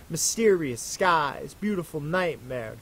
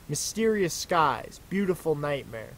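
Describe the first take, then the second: The two takes are said the same way.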